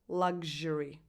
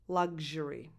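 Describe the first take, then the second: Both takes have the same delivery.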